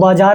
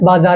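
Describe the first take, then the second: First: The middle consonant is a 'j' sound. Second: The middle consonant is a 'z' sound. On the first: The speaker calls it wrong. "बाजार नहीं होता है" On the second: The speaker calls it right. "बाजार होता है"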